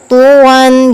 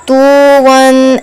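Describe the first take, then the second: First: "तुवन" with a clear, unstretched short u; short pesh vowel. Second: "तुवन" with the first vowel stretched too long; wrong drawn-out reading. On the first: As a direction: sound the u in "तुवन" without dragging it. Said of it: "पेश की हरकत भी पढ़ी जाए और खींचना". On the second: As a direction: drag out the u in "तुवन" as a mistake. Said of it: "ऐसे नहीं पढ़ना". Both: Shown as a demonstration.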